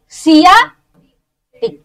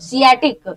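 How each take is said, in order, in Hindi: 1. शब्द बीच में रुकावट के साथ दो हिस्सों में बोला जाता है। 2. शब्द बिना किसी रुकावट के एक साथ बोला जाता है।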